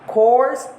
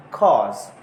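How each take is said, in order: First: Said in the usual way. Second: "cause" with open vowel, no R; British "course", R swallowed into the vowel; British dropped R. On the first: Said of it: "R is sometimes replaced". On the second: Shown as a demonstration. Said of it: "replaced by a vowel sound".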